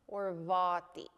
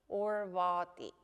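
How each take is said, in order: The two takes are said the same way.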